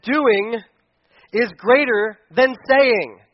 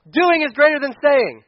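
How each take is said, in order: First: Slow, deliberate phrase; slow emphasis. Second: "Doing" hit high and loud; stress on Doing. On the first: Pastor to church, slow deliberate emphasis. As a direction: draw the phrase out slowly. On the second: Pastor drilling the point, stressing "Doing". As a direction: punch the word "Doing". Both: Shown as a demonstration.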